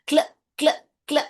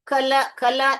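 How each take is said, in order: First: The k and l are blended without a vowel. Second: A vowel is inserted between k and l. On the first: The speaker calls it right. "इसको कैसे पढ़ते हैं?" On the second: The speaker calls it wrong. "ऐसे नहीं पढ़ते हैं"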